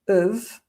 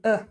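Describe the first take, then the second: First: It drops the h but keeps the v. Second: It is just a weak vowel without consonants. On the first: "or even uv" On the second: "or even uh"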